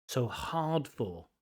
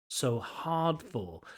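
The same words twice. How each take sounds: Both takes have the same delivery.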